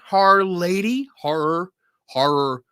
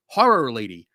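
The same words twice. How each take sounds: First: Philly accent. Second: Horror Lady with a Philly vowel in Horror; Philly accent. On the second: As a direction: Horror said the Philly way, like hore-ror. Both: Real, not acted. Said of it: "My Philly accent is having trouble".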